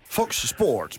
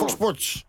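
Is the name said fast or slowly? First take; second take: slowly; fast. First: The name is said slowly and carefully. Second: The name is said quickly and run together. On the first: "Een beetje langzaam, ja, lukt het wel" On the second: "Maar als je snel gaat"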